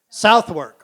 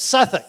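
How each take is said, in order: First: Every letter is sounded, as the name is spelled. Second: It is shortened to two quick, reduced syllables. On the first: The speaker calls it wrong. "that's not how the English pronounce it" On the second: The speaker calls it right. "It's Suffolk"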